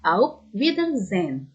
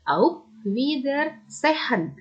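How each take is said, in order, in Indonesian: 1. Satu bunyi dalam kata itu dihilangkan. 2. Semua bunyi dalam kata itu diucapkan dengan jelas. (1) "tapi hanya dihilangkan ya. Jadi" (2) "bukan dibaca auf Wiedersehen"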